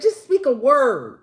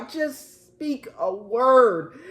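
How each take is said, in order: First: Said in the usual way. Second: "just speak a word" slowed right down, each word drawn out; deliberate, unhurried "just speak a word"; slow repeat. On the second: Acted. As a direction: spell it out word by word. Commander's plea repeated slowly.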